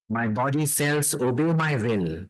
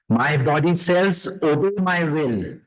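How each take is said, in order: First: It is said at ordinary speaking volume. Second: It is said loudly and forcefully. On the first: It goes deeper toward the subconscious. "then in a normal voice going deeper" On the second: It speaks to the conscious mind. "speaking out loud to our conscious mind"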